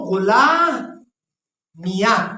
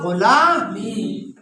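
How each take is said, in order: First: The final ya is voiced, ending in ya. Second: The final ya is silent, ending in ee. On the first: "इस तरह भी पढ़ सकते हो" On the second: "या को साकिन करो और माकबल कसरा दे दो"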